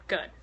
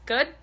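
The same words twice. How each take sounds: First: Good. said as a falling answer. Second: Good? asked with a rising tune; questioning rise. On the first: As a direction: answer Good. with the pitch dropping. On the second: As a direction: ask Good? as a question, pitch up at the end. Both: Shown as a demonstration.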